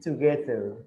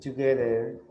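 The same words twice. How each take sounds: First: The middle consonant is a 'th' sound. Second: The middle consonant is not a 'th' sound. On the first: The speaker calls it right. "you have a T H, so it's together" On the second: The speaker calls it wrong. "I think you said together"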